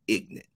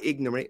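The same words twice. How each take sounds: First: The word is clipped to two syllables, like ignant. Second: The word is said in full with three syllables. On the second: "Not ignorant"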